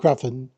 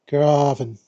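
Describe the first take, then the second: First: The word is pushed out quickly and abruptly. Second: The word is said slowly in a relaxed way. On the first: The speaker calls it wrong. "rather than trying to get the word out as quickly as possible" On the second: The speaker calls it right. "In a much more laid back approach"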